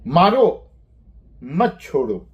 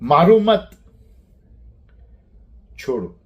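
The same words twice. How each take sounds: First: The pause comes after the first word. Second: The pause comes after the second word. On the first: Hit; do not let go. "अगर हम मारो के बाद अल्प विराम लगाते हैं" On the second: Do not hit; let go. "मारना नहीं, छोड़ दो।"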